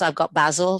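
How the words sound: Basil is said with a British accent.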